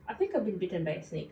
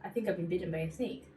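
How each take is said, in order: First: Calm deadpan. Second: Matter-of-fact, quick and unbothered; calm deadpan. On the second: Telling her best friend about the bite, calm and deadpan. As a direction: say it as if it's nothing. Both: Retold or imitated. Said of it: "exactly how I said it".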